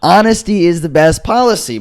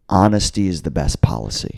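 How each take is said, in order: First: Higher, forceful restating of a principle; emphatic insistence. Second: Low, measured statement of principle; earnest calm assertion. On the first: Teller lectures his doubting friends, emphatically insistent. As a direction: insist on it as if they missed it. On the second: Teller quotes himself advising stoner friends, calmly earnest. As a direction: lay it down low and matter-of-fact. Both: Retold or imitated.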